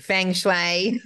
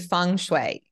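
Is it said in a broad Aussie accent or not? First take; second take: Aussie; not Aussie. First: It is said in a broad Aussie bogan accent. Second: It is said without a broad Aussie accent.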